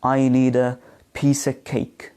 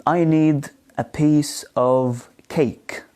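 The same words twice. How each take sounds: First: "of" reduced to a schwa, piece-uh-cake; weak form of OF. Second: Slow, separated words with "of" said fully as OV; careful, slow citation style, full "of"; strong form of OF. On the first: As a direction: link "piece of cake" as pees-uh-cake. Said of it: "as the weak form". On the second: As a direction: give "of" its full vowel and V. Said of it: "not a strong form". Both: Shown as a demonstration.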